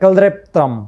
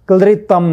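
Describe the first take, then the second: First: The first syllable has an 'e' vowel sound. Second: The first syllable has a syllabic 'lri' sound. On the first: The speaker calls it right. "एकार सहितको उच्चारण हुन्छ" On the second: The speaker calls it wrong. "नभएर"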